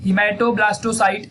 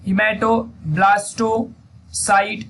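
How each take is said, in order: First: Hematoblastocite said again, still slow but smoother; teacher repeating the term once more, slightly quicker. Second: Hematoblastocite broken into slow separate syllables; teacher spelling out a hard term very slowly; very slow first take. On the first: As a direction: repeat hematoblastocite at an easier, joined-up pace. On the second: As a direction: crawl through hematoblastocite for dictation. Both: Shown as a demonstration. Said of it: "तो उसका नाम है hemato".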